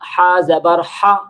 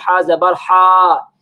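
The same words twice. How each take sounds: First: The final vowel is kept short. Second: The final vowel is drawn out long. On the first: The speaker calls it right. "इन हरकत को लंबा नहीं करेंगे। जैसे हम पढ़ लेते हैं" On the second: The speaker calls it wrong. "थोड़ा-सा लंबा करके"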